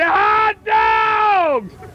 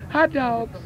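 First: It is said loudly and energetically. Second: It is said quietly and listlessly.

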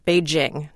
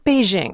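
First: The j is a hard sound as in juice. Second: The j is a soft sound as in azure. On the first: The speaker calls it right. "we say J as in juice" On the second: The speaker calls it wrong. "not as in azure or leisure"

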